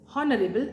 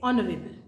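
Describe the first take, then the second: First: The word begins with an audible h sound. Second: The word begins with a vowel, h silent. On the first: The speaker calls it wrong. "I cannot say honorable" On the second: The speaker calls it right. "I say honorable"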